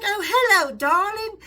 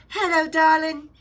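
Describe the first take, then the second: First: High, sweet English lady voice, louder; imitating a sweet English accent, pitched up; posh English accent. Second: Slow, sweet English lady voice, pitched up; mock English greeting; English accent. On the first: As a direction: coo it like a refined English woman. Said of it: "I heard a tiny little English voice". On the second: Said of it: "tiny little English voice".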